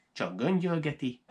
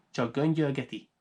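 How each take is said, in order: Both takes have the same delivery.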